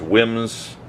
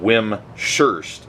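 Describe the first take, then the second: First: The second part begins with an 'h' sound. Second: The second part begins with an 'sh' sound. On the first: The speaker calls it right. "Wimshurst is pronounced Wims, like to rhyme with hymns, and Hurst" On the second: The speaker calls it wrong. "Some people pronounced it Wim-Shurst, and that is incorrect"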